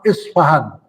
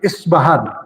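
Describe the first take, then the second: First: It starts with an i vowel and f. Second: It starts with an i vowel and b. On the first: "diriwayatkan juga dengan fa" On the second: "dengan kasroh pada alif"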